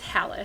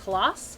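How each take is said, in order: First: The name has a relaxed American pronunciation. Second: The name has its original Norwegian pronunciation. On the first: This is the form most people use today. The speaker calls it wrong. "we got lazy and uh, it's Hallis" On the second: This is the original form of the name. The speaker calls it right. "the proper pronunciation is Halas"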